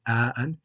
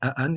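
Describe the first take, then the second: First: A long 'a' vowel separates the two hamzas. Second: The two hamzas have no long vowel between them. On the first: The speaker calls it right. "you say a'an" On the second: The speaker calls it wrong. "you don't say a'an"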